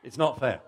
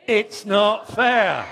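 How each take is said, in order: First: Said in the usual way. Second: Loud, high, slow it's not fair; really milk the whine, drawn out; big sulky wail. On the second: Shown as a demonstration. Shows the child how to sulk, loud and drawn out. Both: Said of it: "Let's just try that again".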